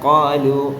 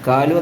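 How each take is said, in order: First: It starts with a deep back q sound. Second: It starts with a plain front k sound. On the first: The speaker calls it right. "കാ അല്ല ഖാ" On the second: The speaker calls it wrong. "കാലു എന്നല്ല"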